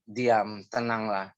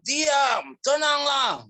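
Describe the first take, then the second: First: The command is spoken calmly but firmly. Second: The command is shouted loudly. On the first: The speaker calls it right. "dia berkata dengan tegas, dan dengan penuh kuasa dan otoritas" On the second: The speaker calls it wrong. "bukan berteriak, bukan diam, tenanglah, bukan seperti itu"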